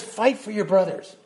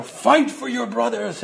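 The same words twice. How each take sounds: First: Said in the usual way. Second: Put-on a faint Irish accent, higher and slow; a half-hearted Irish accent, rallying the troops; failed Irish accent. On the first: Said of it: "And he says, he says". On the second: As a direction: reach for an Irish brogue and fall short. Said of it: "like, an Irish accent when he says".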